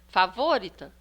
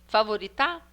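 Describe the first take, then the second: First: The stress is on the third-to-last syllable. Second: The stress is on the last syllable. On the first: "agora nós vamos tentar a antepenúltima" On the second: "a última"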